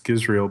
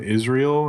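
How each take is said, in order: First: The surname begins with a hard G sound. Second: The surname begins with a vowel sound. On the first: The speaker calls it right. ""No, it's Gizrael."" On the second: The speaker calls it wrong. "people would go, "Oh, are you Jim Israel?""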